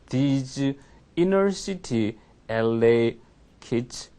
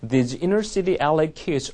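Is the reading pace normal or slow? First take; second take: slow; normal. First: It is read at a noticeably slow pace. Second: It is read at a normal, steady pace. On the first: The speaker calls it wrong. "느리죠" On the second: The speaker calls it right. "원래는 이렇게 읽어야 돼요"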